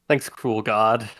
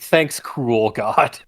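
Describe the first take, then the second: First: It is said in a plain, hard-to-read tone. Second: It is said in a clearly sarcastic tone. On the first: "it was a little hard to tell" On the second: "There we go. that's the inflection"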